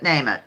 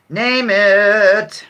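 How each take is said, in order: First: Said in the usual way. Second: Louder, game-show host call; punchy call. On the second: Shown as a demonstration. Host challenging the chat to answer, with a louder call. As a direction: throw it out to the players like a challenge.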